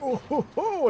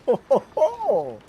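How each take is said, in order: First: Put-on high, hyper old-man chuckle. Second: Put-on slow, loud old-man chuckle. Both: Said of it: "a very old man hyper voice".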